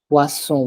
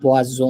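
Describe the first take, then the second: First: The middle consonant is a hissing s sound. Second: The middle consonant is a buzzing z sound. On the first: The speaker calls it right. "Double S. Very nice" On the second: The speaker calls it wrong. "it's not poisson"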